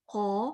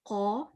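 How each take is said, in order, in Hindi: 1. qaf की आवाज़ मुँह में मोटी और गहरी लगती है। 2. qaf की आवाज़ मुँह में मोटी और गहरी लगती है।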